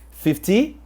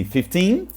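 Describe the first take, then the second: First: Fifty with a strong first syllable; FIF-ty, lean on the start of fifty; stress on FIF. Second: Fifteen with a rising second syllable; fif-TEEN, lift the end of fifteen; stress on TEEN. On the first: Teacher recapping for learners, "fifty" stressed on fif. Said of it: "com estresse no fifth". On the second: Teacher recapping for learners, "fifteen" stressed on teen. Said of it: "com estresse no teen". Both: Shown as a demonstration.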